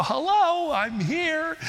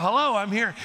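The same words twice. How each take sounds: First: Put-on high squeaky child hello; little high squeaky voice. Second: Lightly voiced child hello. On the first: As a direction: squeak it like a five-year-old. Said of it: "that little high squeaky voice". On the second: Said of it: "he's getting into that".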